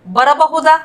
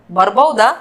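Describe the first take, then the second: First: Said in the usual way. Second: ಬರಬಹುದಾ contracted to "barbauda"; lower-pitched ಬರಬಹುದಾ, said bar-bau-da; colloquial short form. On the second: Shown as a demonstration. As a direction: drop the middle a in ಬರಬಹುದಾ. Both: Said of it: "इसको बोलेंगे".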